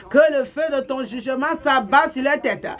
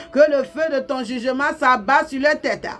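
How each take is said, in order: No difference in how they are said.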